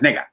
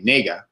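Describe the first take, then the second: First: The word is said quickly and clipped short. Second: The word is drawn out with a long vowel. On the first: "if you say that fast" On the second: "some people say it the long a"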